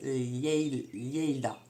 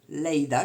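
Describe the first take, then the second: First: The name begins with a palatal 'ly' sound. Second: The name begins with a plain L sound. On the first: The speaker calls it right. "les deux L normalement c'est on dit Lianza, donc ça doit être Lleida" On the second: The speaker calls it wrong. "je sais pas si on prononce Leida"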